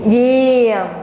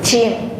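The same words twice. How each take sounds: First: The first sound is made with the tongue back. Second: The first sound is made with the tongue forward. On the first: The speaker calls it right. "Tapi kalau mundur" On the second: The speaker calls it wrong. "Coba lidahnya maju ke depan"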